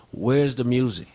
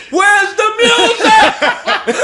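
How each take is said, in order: First: Said in the usual way. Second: Drawn-out, high-pitched full scream; huge comic retold holler. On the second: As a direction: scream it slowly down the street after a car. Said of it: "screaming at his car".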